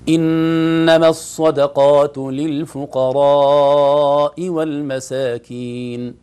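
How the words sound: All sounds come strongly from the mouth. The speaker calls it right. "الأولى أوضح، حرف طلع كله بقوة من الفم"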